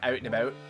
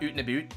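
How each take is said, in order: First: The vowel in 'out' sounds like 'ow'. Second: The vowel in 'out' sounds like 'oo'. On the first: This is how Canadians actually say it. The speaker calls it right. "It's more like out and about" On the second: This is the stereotype of how Canadians talk. The speaker calls it wrong. "It's not oot and about"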